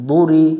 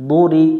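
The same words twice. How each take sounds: Both takes have the same delivery.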